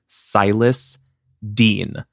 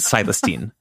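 First: The two names are said as separate words. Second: The two names run together as one word. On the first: The name is a first and last name. The speaker calls it right. "his name is Silas Dean" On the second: The name is a single word. The speaker calls it wrong. "Like one word"

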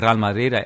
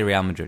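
First: It is pronounced with a Spanish accent. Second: It is pronounced with an English accent. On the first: "mix the Spanish accent when I'm speaking English" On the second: "I'll just say Real Madrid. It's easier"

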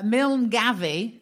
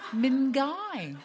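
First: The name is read out fully, letter by letter. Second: The name is said in a short two-syllable form. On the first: The speaker calls it wrong. "it clearly says Milne Gavi" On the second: The speaker calls it right. "is actually Mingai"

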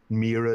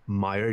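First: The name blends the original and English pronunciations. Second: The name has an English-style pronunciation. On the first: "is the closest, like what's called compromise between those" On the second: "you'd say in English"

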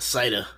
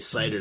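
First: The word is said in a Boston accent. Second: The word is said in a plain accent.

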